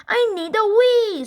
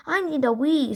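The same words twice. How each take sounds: First: High, loud scream of I need a wee; Henry screaming from the back seat. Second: Said in the usual way. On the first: A narrator's reading. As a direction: shriek to make mom stop. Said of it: "screamed Henry". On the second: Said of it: "said Henry".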